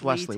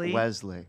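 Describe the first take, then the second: First: The middle consonant is a hissing s sound. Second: The middle consonant is a buzzing z sound. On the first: The speaker calls it right. "there's no Z in my name" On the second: The speaker calls it wrong. "It's not Wesley"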